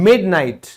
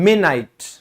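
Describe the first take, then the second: The two takes are said the same way.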